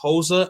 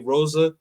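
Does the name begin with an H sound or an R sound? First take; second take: H sound; R sound. First: The name begins with a breathy H-like sound. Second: The name begins with an English R sound. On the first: "in Portuguese is actually uh" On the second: "In English, we say Rosa"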